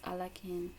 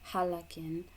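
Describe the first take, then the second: First: The word begins with a vowel, no h sound. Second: The word begins with an h sound. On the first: "the proper response is Alakin" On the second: "as some people pronounce it as Halakin"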